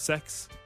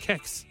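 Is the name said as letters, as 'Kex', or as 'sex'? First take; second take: sex; Kex. First: The name is said as one word rhyming with 'next'. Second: The name is said as one word starting with K. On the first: "That's pronounced sex" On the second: "Other people have been calling it Kex"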